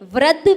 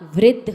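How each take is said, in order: First: The r is said without an i sound. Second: The r is followed by an i sound. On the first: The speaker calls it wrong. "नहीं होता" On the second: The speaker calls it right. "होता है"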